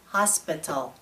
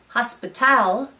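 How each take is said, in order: First: No syllable stands out; the word is flat. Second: The stress falls on a later syllable. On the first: "If no syllable is stressed, our voice is monotone" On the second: "If we stress the incorrect syllable"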